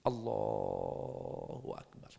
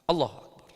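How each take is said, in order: First: It is said slowly with the vowels drawn out. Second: It is said quickly without drawing it out. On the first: The intention is made together with the first takbir. "sesuai madhab Syafi'i" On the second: The worshipper does not follow the Shafi'i practice. "nggak lama takbirnya, nggak lama"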